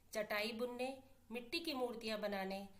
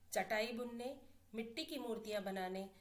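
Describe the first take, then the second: The two takes are said the same way.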